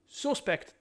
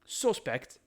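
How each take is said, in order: First: Sarcastic jab. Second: Said in the usual way. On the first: Real, not acted. Sarcastic jab, repeated later.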